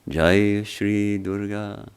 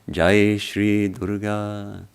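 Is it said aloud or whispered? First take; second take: aloud; aloud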